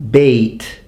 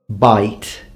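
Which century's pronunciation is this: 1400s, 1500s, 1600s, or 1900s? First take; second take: 1500s; 1900s. First: The vowel is pronounced as in the 1500s. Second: The vowel is pronounced as in the 1900s. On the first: "fifteen hundreds" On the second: "nineteen hundreds"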